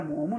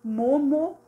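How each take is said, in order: First: Said in the usual way. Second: "Momo" higher, in two even beats; syllables separated. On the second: Shown as a demonstration. Teacher showing two separated syllables, split "Momo". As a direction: stress both syllables of "Momo". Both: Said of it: "separada as duas sílabas".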